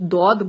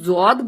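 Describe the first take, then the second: First: The word begins with a d sound. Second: The word begins with a z sound. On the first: This is how it is said in Arabic. "Arabic में दौद बोला जाता है" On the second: This is how speakers here say it. "हम जौद बोलते हैं"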